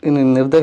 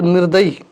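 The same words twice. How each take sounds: First: "निर्दय" ending on a short sound, no ई; correct form without ई. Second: "निर्दयी" with a long ई at the end; wrong form with final ई. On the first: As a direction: say "निर्दय" cleanly, with no long ई at the end. ("निर्दय" बिना ई की मात्रा के) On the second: ("निर्दयी" अंत में दीर्घ ई के साथ) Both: Shown as a demonstration. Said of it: "निर्दय होना चाहिए".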